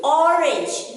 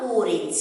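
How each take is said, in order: First: "orange" opening on a short aw sound; short O pronunciation. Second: "orange" opening on a long oh sound; long O mispronunciation. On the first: Teacher showing children the right sound, short-O orange. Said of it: "Sound of O is not O". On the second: Teacher showing children what to avoid, long-O orange. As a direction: say "orange" wrongly as oh-rinj. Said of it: "It is not orange". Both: Shown as a demonstration.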